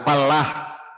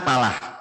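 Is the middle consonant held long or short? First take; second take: long; short. First: The l sound is doubled and held long. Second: The l sound is single and short. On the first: It means farmer. "menggunakan tasjid di lam" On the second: It means success. "yang tidak menggunakan tasjid"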